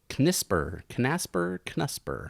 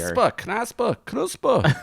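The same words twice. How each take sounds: First: It is said plainly, without anger. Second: It is said in an angry way.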